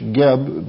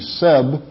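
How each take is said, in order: First: The name begins with a hard G sound. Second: The name begins with an S sound. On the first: The speaker calls it wrong. "Some pronounce it in English Geb" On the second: The speaker calls it right. "but it is actually Seb"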